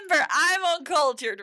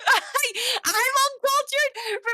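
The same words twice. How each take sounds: First: Said in the usual way. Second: High, slow, drawn-out laughing wail; mock wail, laughing. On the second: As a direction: whine it like a hammy complaint, laughing.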